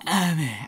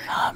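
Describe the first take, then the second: First: It is said in a plain, normal voice. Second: It is said breathily, close to the mic.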